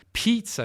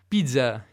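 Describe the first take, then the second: First: It is said with an English accent. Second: It is said with a French accent. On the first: "in inglese" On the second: "in francese"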